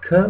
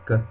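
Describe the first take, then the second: First: The k has a puff of air after it. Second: The k has no puff of air after it. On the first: The speaker calls it wrong. "You don't say k" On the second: The speaker calls it right. "but you say k"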